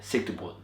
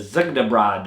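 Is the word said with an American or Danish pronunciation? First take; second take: Danish; American. First: It is said with a native Danish pronunciation. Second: It is said with an anglicized American pronunciation. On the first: The speaker calls it right. "that's how you say it" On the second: The speaker calls it wrong. "whatever you guys in the States call it"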